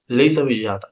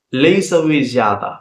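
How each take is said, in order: First: Said in the usual way. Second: Slow, stretched teaching pronunciation; drawn-out demonstration; slow model. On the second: Shown as a demonstration. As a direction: sound it out slowly for learners. Teacher models phrase slowly first.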